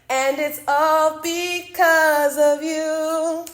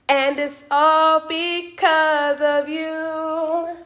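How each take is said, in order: First: It is said in a put-on character voice. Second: The same.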